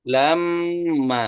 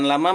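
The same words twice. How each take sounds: First: The m sound is held for a long time. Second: The m sound is short and not held. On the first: The speaker calls it right. "Lama gitu" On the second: The speaker calls it wrong. "bukan lama"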